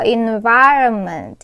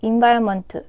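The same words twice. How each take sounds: First: The stress is on the second syllable. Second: All syllables are said flat, without stress. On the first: "중간에 있어요. envi에 올려주시면 돼요" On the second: "이렇게 플랫하게"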